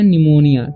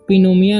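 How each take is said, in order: First: The word begins with an n sound. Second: The word begins with a p sound. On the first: The speaker calls it right. "पी का उच्चारण यहाँ पर नहीं होगा" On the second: The speaker calls it wrong. "पिनोमिया नहीं पढ़ना है"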